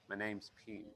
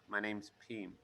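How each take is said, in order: Both takes have the same delivery.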